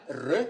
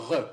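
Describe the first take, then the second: First: "re" with a rolled tongue-tip R; tongue-tip trill on "re"; coronal R. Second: "re" with a standard French back R; uvular R. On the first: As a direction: trill the R of "re" at the front. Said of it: "quand c'est une coronale". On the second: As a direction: say "re" from the uvula, low. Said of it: "quand c'est une uvulaire". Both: Shown as a demonstration.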